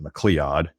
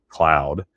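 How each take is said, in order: First: The name is said as it is spelled. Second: The name is said like the word cloud. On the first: This is how outsiders reading the name say it. "spelled and pronounce it" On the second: This is how local people say it. "the locals call it"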